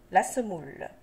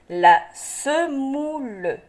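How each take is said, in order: First: Said in the usual way. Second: "La semoule" slow and stretched, la - se - mou - le; syllable by syllable. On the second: Shown as a demonstration. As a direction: sound out "La semoule" piece by piece. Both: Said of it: "des syllabes qui se donnent la main".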